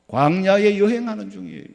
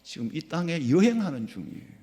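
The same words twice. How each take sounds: First: Preaching emphasis. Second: Said in the usual way. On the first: Acted. Sermon repetition.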